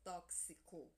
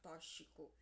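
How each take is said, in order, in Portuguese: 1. O x é pronunciado como 'ks'. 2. O x não é pronunciado como 'ks'. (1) "é tóxico. É a pronúncia correta" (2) "a gente tem mania que fala tóxico"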